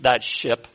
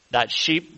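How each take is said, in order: First: "ship" said with a short i, fixing the slip; corrected word. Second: "sheep" said with a long ee instead of "ship"; slip of the tongue. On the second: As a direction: trip over the word, saying "sheep" with a long vowel. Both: Real, not acted. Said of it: "not a sheep".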